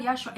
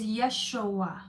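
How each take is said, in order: First: Yeshua said quickly, run together; wrong pronunciation. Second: Yeshua drawn out slowly, syllable by syllable; corrected pronunciation. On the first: Correcting the name for viewers, mispronounced Yeshua. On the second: Correcting the name for viewers, slow careful Yeshua. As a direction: stretch Yeshua out to show each sound. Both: Shown as a demonstration. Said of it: "It's not Yeshua. It's Yeshua".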